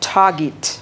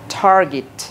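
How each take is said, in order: First: It is said with a British accent. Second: It is said with an American accent. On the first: "ব্রিটিশদের মতো বলবো" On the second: "আমেরিকানদের মতো বলো"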